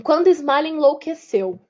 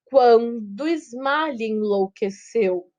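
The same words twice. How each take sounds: First: Said in the usual way. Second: Slow, measured scansion of the verse; syllable by syllable. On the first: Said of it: "Por exemplo, aqui". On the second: Shown as a demonstration. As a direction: stretch each metrical syllable out slowly. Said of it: "sílaba por sílaba".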